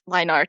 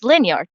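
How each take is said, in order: First: It is said as two separate words. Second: It is said as one word like 'linear'. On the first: The speaker calls it right. "line art is pronounced line art" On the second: The speaker calls it wrong. "before I had been pronouncing it linear"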